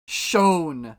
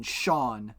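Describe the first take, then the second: First: "Sean" said as "Shone", louder, with a long o; Scandinavian Sean. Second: Said in the usual way. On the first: Shown as a demonstration. Streamer sounds out the Swedish spelling, "Sean" as "Shone". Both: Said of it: "a Scandinavian Sean would be S J O N".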